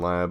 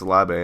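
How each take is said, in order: First: The final e is silent. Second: The final e is sounded as a vowel. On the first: The speaker calls it wrong. "and not Dylan Lab" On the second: The speaker calls it right. "he has the accent over his E. So I think it's Labe"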